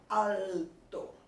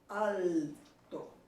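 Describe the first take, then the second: First: The L is a full L, tongue touching palate. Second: The same.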